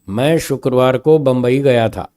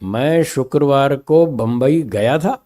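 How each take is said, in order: First: It is said plainly with no word stressed. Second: The word गया carries the emphasis. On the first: It is a simple statement of the trip. "Simple स्वर में एक simple statement है" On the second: The person came that day rather than went. "अब मैंने गया पे जो सुर बोला"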